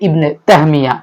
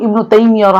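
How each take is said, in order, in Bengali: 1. নামটি তাহমিয়া বলা হয়, 'ah' দিয়ে। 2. নামটি তাইমিয়া বলা হয়, 'ai' দিয়ে।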